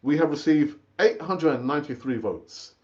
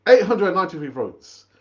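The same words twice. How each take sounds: First: Said in the usual way. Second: Eight hundred and ninety-three votes repeated louder, leaning on eight; emphatic repeat. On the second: Shown as a demonstration. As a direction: punch the number out proudly.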